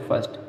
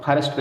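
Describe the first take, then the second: First: "फर्स्ट" as fust, with no R; र silent. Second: "फर्स्ट" with a full R, pha-rist; गलत उच्चारण. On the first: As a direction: drop the R in "फर्स्ट". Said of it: "आर silent करेंगे". ("फर्स्ट" में र छोड़कर) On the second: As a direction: sound the R wrongly in "फर्स्ट". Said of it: "नहीं बोलते". ("फर्स्ट" में र साफ़ बोलकर) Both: Shown as a demonstration.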